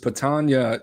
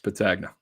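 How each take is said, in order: First: The surname is given its Sicilian pronunciation. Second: The surname is given its American pronunciation. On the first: This is how the name is said in Sicily. "is actually the right pronunciation if you're from Sicily" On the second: This is how the name is said in America. "we're in America. It's Patagna"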